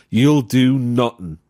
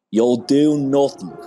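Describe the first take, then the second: First: Put-on Irish accent, slow and drawn out; mild Irish quote. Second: Higher, louder, slow Dublin accent; hammed-up Dublin accent, dragging each word. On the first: Quoting Conor McGregor to a podcast co-host, mild Irish accent. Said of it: "I'd like to quote the great Irish philosopher, Conor McGregor". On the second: Shown as a demonstration. Celebrating the Losers Club with a Dublin accent impression. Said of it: "I will say it in a Dublin accent".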